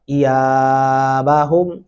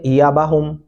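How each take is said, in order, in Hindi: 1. y के बाद का स्वर लंबा है। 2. y के बाद का स्वर छोटा है। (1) "या को अलिफ की वजह से लंबा किया जाएगा" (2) "अक्सर बच्चे यहाँ इसको पढ़ रहे होते हैं"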